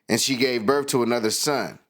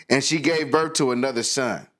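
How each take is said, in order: No difference in how they are said.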